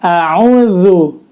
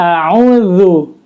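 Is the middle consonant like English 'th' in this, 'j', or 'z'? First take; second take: th; th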